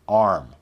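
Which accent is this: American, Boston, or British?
American. American accent, with the r sound. "We want the standard American sound"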